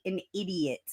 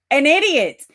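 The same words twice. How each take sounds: First: Quiet aside. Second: Loud and higher, hammering the insult; emphatic. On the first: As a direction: drop it to a hush. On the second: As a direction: belt it out at herself. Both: Shown as a demonstration.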